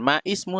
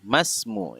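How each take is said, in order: First: A separate 'i' is voiced before 'smu'. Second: The words are linked with no 'i' before 'smu'. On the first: The speaker calls it wrong. "bukan ma ismu" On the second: The speaker calls it right. "tapi langsung masmu"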